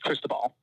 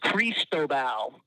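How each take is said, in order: First: The name is said quickly and shortened. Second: All three syllables are fully pronounced. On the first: "shortened it to say it as quickly as possible" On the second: "The phonetic pronunciation is Cristobal"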